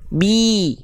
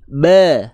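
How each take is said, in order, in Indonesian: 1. Vokalnya terdengar seperti 'i' yang jelas. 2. Vokalnya terdengar seperti 'e' datar. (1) "Tapi kalau kita angkat bi" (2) "nggak diangkat tengah lidahnya, bunyinya begini"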